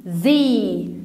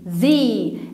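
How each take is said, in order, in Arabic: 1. الحرف المتحرك هو صوت 'ee' طويل. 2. الحرف المتحرك هو صوت 'ee' طويل.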